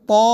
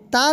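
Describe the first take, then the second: First: تا heavy with a rounded aw; full, rounded short تا; open-mouthed thick t. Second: تا light with plain open aa; wrong thin t. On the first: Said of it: "منہ کھول کر". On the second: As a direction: say تا thin, unrounded. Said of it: "نہیں کہیں گے". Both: Shown as a demonstration.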